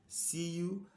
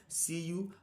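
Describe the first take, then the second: Both takes have the same delivery.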